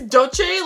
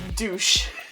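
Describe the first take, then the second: First: The name is said as two syllables ending in chay. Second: The name is said as one syllable ending in sh. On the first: This is how the spelling seems to read. "it looks like it's dolce, like a cinnamon dolce latte" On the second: This is the speaker's own nickname for the brand. "I used to call this brand Douche"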